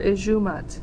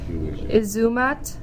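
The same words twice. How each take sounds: First: The middle consonant is a J sound. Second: The middle consonant is a Z sound. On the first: "or a J sound" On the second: "an S between two vowels will make a Z or a J sound"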